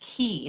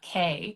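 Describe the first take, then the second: First: The word rhymes with see. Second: The word rhymes with day. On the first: The speaker calls it right. "That one I know definitively is Key" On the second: The speaker calls it wrong. "not K"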